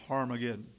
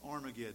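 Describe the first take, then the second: First: The word begins with an h sound. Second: The word begins with a vowel sound. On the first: The speaker calls it wrong. "I do not like the New American Standard transliteration" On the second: The speaker calls it right. "But it's Armageddon"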